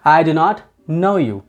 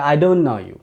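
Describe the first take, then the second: First: Do not is said as two full words. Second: Do not is contracted into one syllable.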